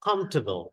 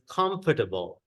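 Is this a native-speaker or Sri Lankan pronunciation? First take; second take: native-speaker; Sri Lankan. First: It is said with a native-speaker pronunciation. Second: It is said with a Sri Lankan pronunciation. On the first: "ඒගොල්ලෝ කියන්නේ" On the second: "That's how it's pronounced in our country"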